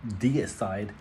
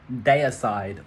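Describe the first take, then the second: First: Deicide said as DEE-uh-side, slower; alternative pronunciation. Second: Deicide said as DAY-uh-side; first pronunciation. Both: Shown as a demonstration. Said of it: "however you wish to say it".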